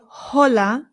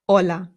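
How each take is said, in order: First: The word begins with an audible h sound. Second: The word begins directly with the vowel. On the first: The speaker calls it wrong. "So we don't say hola" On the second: The speaker calls it right. "it's just hola"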